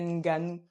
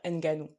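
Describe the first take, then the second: First: The opening N is blended into the next sound. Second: The opening N is said as a separate sound. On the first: This is how Africans say the name. The speaker calls it right. "c'est pas un N que tu lis comme dans l'alphabet" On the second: This is how Europeans say the name. The speaker calls it wrong. "si on se place d'un point de vue européen, on va dire"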